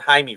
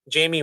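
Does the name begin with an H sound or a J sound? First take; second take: H sound; J sound. First: The name begins without a J sound. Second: The name begins with a J sound.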